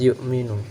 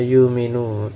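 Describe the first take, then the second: First: A glottal stop follows the first syllable. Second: The glottal stop is replaced by a long vowel. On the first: This is the reading of another transmission. "Kalau Hafs yu'minu" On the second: This is the reading of one transmission. "dibaca yuminu dengan ibdal uh, hamzahnya"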